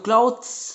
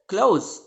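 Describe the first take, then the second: First: The 'th' sound is lightly pronounced. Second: The 'th' sound is left out completely. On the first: "अगर आप इसको क्लॉथ्स पढ़ते हैं" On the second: "इसका pronunciation क्या होता है? क्लोज"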